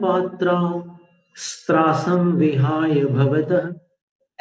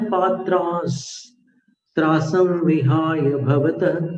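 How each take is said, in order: First: The s sound begins the second word. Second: The s sound ends the first word. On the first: The speaker calls it wrong. "ऐसा नहीं करना है" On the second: The speaker calls it right. "उसी अक्षर के साथ किया जाता है जिस अक्षर में विसर्ग थे"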